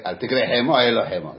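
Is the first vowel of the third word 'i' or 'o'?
i. Both key words are said with the same 'i' vowel. The two words sound identical. The speaker calls it wrong. "יש אלה מחוזות שלא יודעים לבטא את החלם, קוראים את זה כמו סרי"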